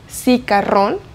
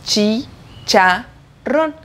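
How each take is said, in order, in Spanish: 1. La palabra empieza con sonido 's'. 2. La palabra empieza con sonido 'ch'. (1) "no suena cicarrón" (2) "sino chi-cha-ron"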